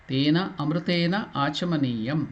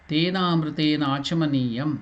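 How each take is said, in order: The two takes are said the same way.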